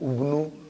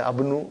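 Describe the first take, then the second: First: The word begins with a u vowel. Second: The word begins with an a vowel. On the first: "I will never say" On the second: "I will never say Abnu"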